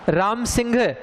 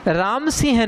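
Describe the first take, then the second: First: The last word ends with a 'gh' sound. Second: The last word ends with a breathy 'h' sound. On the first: The speaker calls it right. "बोलने में घ होता है" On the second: The speaker calls it wrong. "Ram सिंह नहीं भैया"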